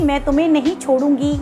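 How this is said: It is said in a soft, loving tone. The speaker's feelings for the listener matter deeply. "अगर हम किसी से प्यार से कह रहे हैं"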